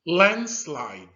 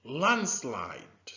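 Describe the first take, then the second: First: Landslide called out clearly and loud; model word, loud. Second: Landslide whispered, without voice; whispered repeat. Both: Shown as a demonstration. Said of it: "Can you say that with me?".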